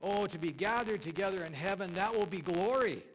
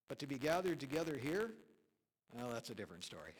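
First: Quoted pastor exulting. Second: Quoted pastor's deflating aside. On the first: Preacher quotes a pastor's joke about heaven, exultant and loud. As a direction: swell with rapture up to the last word. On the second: Preacher lands the pastor's joke about church here, deflating. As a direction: drop from exultation to a quiet, dry finish. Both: Retold or imitated. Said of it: "And this pastor said".

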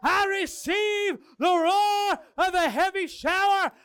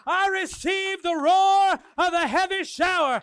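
First: Loud high shout; shouted declaration again. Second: Loud, high declaration; shouted declaration. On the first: Leading the congregation, loud declaration. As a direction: cry out the declaration. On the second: Congregation standing, shouting the declaration. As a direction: declare it at full voice. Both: Real, not acted. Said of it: "begin to declare".

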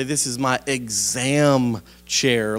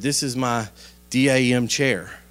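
First: Exam said slowly as two syllables, ex-AM; clarified pronunciation. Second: DAM spelled letter by letter as D A M; spelled-out bad word. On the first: Retold or imitated. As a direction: stretch out exam to make the word clear. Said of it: "she was trying to say". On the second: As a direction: spell D, A, M instead of saying the word. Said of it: "I'm gonna spell out a bad word".

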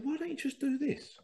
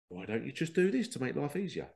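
First: Much higher, wide-eyed suggestion; naive young self. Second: Said in the usual way. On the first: Retold or imitated. Young lad suggests a fix to coworkers, high and innocent. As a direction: pipe up like an eager youngster. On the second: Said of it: "It's like".

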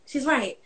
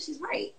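First: Said in the usual way. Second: Quiet realization. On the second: Retold or imitated. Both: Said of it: "I said".

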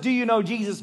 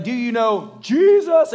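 First: Said in the usual way. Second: Louder, slower, searching question; slow, loud and higher Do you know Jesus; intense plea. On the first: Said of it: "not just". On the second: Retold or imitated. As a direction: ask it with the weight of the moment. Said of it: "he's like".

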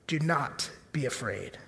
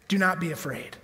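First: Much softer and lower, gentle; soft reassurance. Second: Said in the usual way. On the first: Shown as a demonstration. Preacher comforting the congregation, soft and low. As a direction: ease the fear out of them gently. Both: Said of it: "repeated softer".

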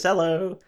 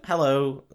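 First: Slow, higher-pitched mock German greeting; German woman's hello. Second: Said in the usual way. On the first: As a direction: draw out a German-accented hello. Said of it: "She's German. She says". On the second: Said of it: "She's German".

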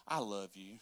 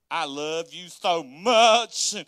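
First: Soft, low declaration of love; calm affection. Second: Loud, drawn-out gushing; over-the-top affection. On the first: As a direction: answer anger gently, voice dropped. Models calm reply to angry spouse. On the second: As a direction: lay the love on thick, stretching the words. Exaggerates the loving reply. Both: Shown as a demonstration.

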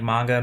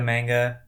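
First: "manga" with a broad "ah", MAHN-guh; first pronunciation variant. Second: "manga" with a flat "a" as in "man"; second pronunciation variant. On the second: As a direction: say "manga" as MANG-guh. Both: Shown as a demonstration. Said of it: "I thought that some, like, manga, manga".

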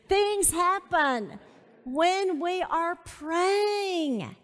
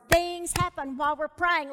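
First: Very slow, raised and emphatic; slow emphatic repeat. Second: Said in the usual way. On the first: Real, not acted. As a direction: draw out THINGS HAPPEN WHEN WE ARE PRAYING.

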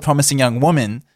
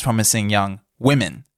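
First: "Woman" said with the wu vowel, singular; "Promising Young Woman" with Woman as in one person. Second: "Women" said with a short wi sound, plural; "Promising Young Women" with Women as wimmin. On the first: To listeners, reading the title wrongly as "Woman" with the wu sound. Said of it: "it's Promising Young Women". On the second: To listeners, correcting the title to plural "Women" with the wi sound. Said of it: "this title isn't called Promising Young Woman". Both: Shown as a demonstration.

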